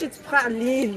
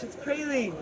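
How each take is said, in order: First: The word is said with a French pronunciation. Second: The word is said with an English pronunciation. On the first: "if you're gonna say it in French, it's praline" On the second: "But in English, it's praline"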